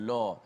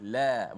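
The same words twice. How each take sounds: First: The l sound is heavy and thick. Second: The l sound is light and thin. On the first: The speaker calls it wrong. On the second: The speaker calls it right. "sifat yang nipis, tarqiq"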